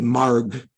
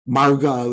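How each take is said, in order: First: The word ends on a consonant, no vowel. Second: The word ends with a final vowel sound. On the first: "we say marg" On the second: "Instead of saying marga"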